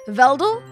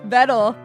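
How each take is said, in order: First: An extra L sound is added mid-word. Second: No L sound is added mid-word. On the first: The speaker calls it wrong. "Veldel is how I'd pronounce it" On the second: The speaker calls it right. "Why did I add an L?"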